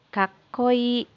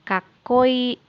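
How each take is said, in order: Both takes have the same delivery.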